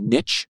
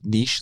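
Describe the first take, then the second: First: The word is said the American way. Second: The word is said in a non-American way.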